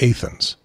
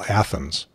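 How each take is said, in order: First: It is said the local Illinois way. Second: It is said the usual Greek-city way. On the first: This is how the local town's people say it. "They called it Athens" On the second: This is how the name of the city in Greece is said. "which if you live in Greece, you would call Athens"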